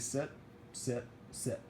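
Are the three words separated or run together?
separated. Each word is said separately with pauses. Each word is a separate command. The speaker calls it right. "pet him and say sit"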